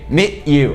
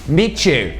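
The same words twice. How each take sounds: First: The T is cut off in the throat. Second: The T and Y blend into a ch sound. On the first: "Aí você dá essa travada com a garganta" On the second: "fica o som de chew"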